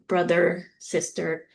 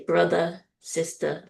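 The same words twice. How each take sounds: First: The final r sounds are clearly pronounced. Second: The final r sounds are softened or dropped. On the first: "instead of saying uh, crisp" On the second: "people from the East Coast ... they'll say"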